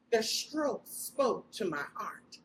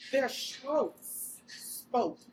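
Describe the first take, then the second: First: Said in the usual way. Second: Each word set apart, very slow, leaning on "Their"; slow emphasis. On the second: Shown as a demonstration. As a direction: drag out "Their strokes spoke" word by word for weight.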